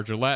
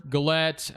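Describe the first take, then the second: First: "Gillette" with a soft zh or J sound first. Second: "Gillette" with a hard G as in "get". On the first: Gamer second-guessing a player's name, soft-G "Gillette". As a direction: say "Gillette" starting juh-LET. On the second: Gamer guessing at a player's name, hard-G "Gillette". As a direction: say "Gillette" starting guh-LET. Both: Real, not acted. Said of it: "I don't know how to say that".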